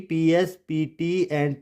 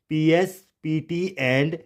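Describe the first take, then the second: No difference in how they are said.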